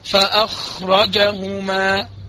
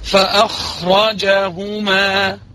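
First: The vowel after the j sound is clipped short. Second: The vowel after the j sound is full length. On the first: The speaker calls it wrong. "لما انا بقى عاوز اختلس اقول ايه؟" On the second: The speaker calls it right. "لا انا عاوز الجيم مظبوط"

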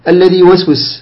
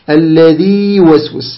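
First: The long vowel is merged into the following y. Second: The long vowel is held with natural lengthening. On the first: The speaker calls it wrong. "خطأ، لا تضغم الياء الأولى بالثانية" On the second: The speaker calls it right. "اجعل فيه مدا طبيعيا"

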